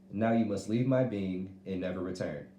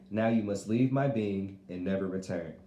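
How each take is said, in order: The two takes are said the same way.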